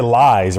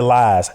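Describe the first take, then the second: First: "lies" with a full long-i glide; own pronunciation. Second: "lies" flattened toward "lahs"; imitated Chicago accent. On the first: Shown as a demonstration. Host showing how he said it, "lies" with a clear glide. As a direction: say "lies" with a clear "eye" vowel. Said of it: "we don't have an accent". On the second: Host copying his guest's Chicago accent, "lies" as "lahs". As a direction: say "lies" with an open, nearly glideless vowel. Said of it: "And he said lies".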